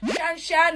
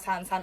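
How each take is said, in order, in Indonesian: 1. Setiap kata diawali bunyi sh. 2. Setiap kata diawali bunyi s biasa. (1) "Masa dibacanya Shan Shan gitu kan?" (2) "Enggak ya, San San aja"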